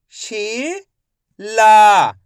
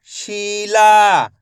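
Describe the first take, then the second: First: शीला drawn out slowly, syllables apart; teacher sounding out शीला slowly. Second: Said in the usual way. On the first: Shown as a demonstration. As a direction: stretch शीला into शी and ला. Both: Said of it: "मैं किस तरीके से एक एक अक्षर का उच्चारण करके".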